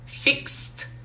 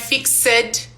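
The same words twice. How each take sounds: First: The ending is pronounced as a t. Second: The ending is not pronounced as a t. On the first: The speaker calls it right. "nós usamos um T" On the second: The speaker calls it wrong. "não é fixed"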